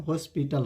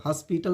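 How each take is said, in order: First: हॉस्पिटल with a rounded "o", "hospital"; correct pronunciation. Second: हॉस्पिटल with an open "a", "haspital"; wrong pronunciation. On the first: Teacher corrects students' हॉस्पिटल to rounded "o". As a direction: say हॉस्पिटल starting "hoe". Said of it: "हॉस्पिटल होता है". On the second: Teacher rejects the habitual हॉस्पिटल, open "a". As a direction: say हॉस्पिटल starting "has". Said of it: "नहीं होता है". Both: Shown as a demonstration.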